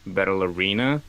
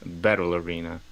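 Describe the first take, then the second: First: The word arena gets the stronger stress. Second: The word battle gets the stronger stress. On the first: The speaker calls it wrong. "So I said Battle Arena" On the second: The speaker calls it right. "and it is Battle Arena"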